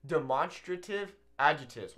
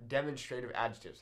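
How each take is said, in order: First: "demonstrative" with a stressed MON, de-MON-stra-tive; stress on second syllable. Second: "demonstrative" as DEM-on-stray-tive; stress on first syllable. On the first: Teacher offering learners one pronunciation, "demonstrative" stressed on MON. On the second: Teacher offering the other pronunciation, "demonstrative" stressed on DEM. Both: Shown as a demonstration. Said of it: "However you wanna say it".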